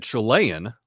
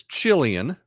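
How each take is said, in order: First: Chilean said chuh-LAY-un, stress in the middle; mispronunciation. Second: Chilean said CHILL-ee-un, stress up front; correct pronunciation. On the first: Retold or imitated. Host copying the seventies newscast's wrong Chilean, chuh-LAY-un. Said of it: "mispronounced it and got it on". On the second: Shown as a demonstration. Host teaching the proper way to say Chilean, stressed CHILL-ee-un. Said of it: "the correct pronunciation is".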